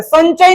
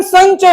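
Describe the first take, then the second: First: संचय as "san-chay"; tongue-tip n in संचय; wrong n sound. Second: संचय as "sañ-chay"; ny nasal before च in संचय; palatal ny sound. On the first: Teacher contrasts a wrong reading, संचय with plain n. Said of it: "संचय नहीं पढ़ेंगे". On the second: Teacher gives the Hindi reading, संचय with ny. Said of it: "Hindi का उच्चारण संचय होता है". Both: Shown as a demonstration.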